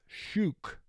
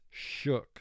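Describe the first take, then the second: First: The vowel is a long oo, as in food. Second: The vowel is a short oo, as in foot. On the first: The speaker calls it wrong. "If O O were representing its first sound, it would be pronounced" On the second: The speaker calls it right. "But it's not pronounced that way. It's shook"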